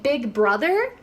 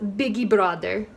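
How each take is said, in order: First: It is said with an American English accent. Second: It is said with a Brazilian Portuguese accent. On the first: "So we would say Big Brother" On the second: "in Brazil they would pronounce this as Big Brother"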